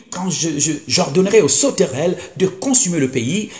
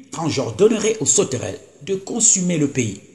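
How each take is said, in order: The two takes are said the same way.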